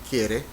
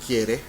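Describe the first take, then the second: Both takes have the same delivery.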